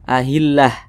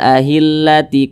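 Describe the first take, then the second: First: The word ends in an h sound and stops. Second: The word ends in 'ti', running into the next word. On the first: The reader stops at this word. "Kalau kita berwakaf, kita baca ahillah" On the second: The reader continues without stopping. "kalau kita wasolkan"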